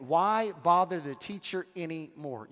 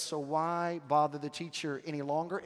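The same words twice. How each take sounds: First: Mildly salty, dismissive question. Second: A touch kinder, gently rising at the end; seemingly kind. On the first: Messenger dismissing Jesus to Jairus, mildly salty. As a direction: put a touch of sarcasm on it, ending on a fall. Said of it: "gives him this very salty statement". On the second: Messenger speaking to grieving Jairus, seemingly kind. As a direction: ask it mildly, as if meaning well. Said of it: "sounds as if that is a kind statement". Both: Retold or imitated.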